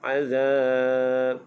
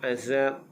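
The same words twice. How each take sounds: First: The middle consonant is a soft 'th' sound. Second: The middle consonant is a buzzing 'z' sound. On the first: The speaker calls it right. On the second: The speaker calls it wrong.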